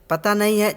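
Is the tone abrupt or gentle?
abrupt. It is said abruptly and harshly. The speaker calls it wrong. "झटके से नहीं"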